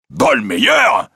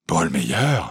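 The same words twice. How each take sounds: First: Startled cry leaping up in pitch; astonished exclamation. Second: Stunned question. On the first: President hears Larsan's true name, astonished exclamation. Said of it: "s'écria le président". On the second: Accused man rises on hearing the name, stunned question. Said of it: "fit Robert Darzac en se soulevant". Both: A narrator's reading.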